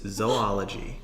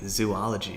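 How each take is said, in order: First: It begins with a short 'zo' sound. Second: It begins with a long 'zoo' sound. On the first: The speaker calls it right. "It's zoology" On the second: The speaker calls it wrong. "you're adding like an extra O"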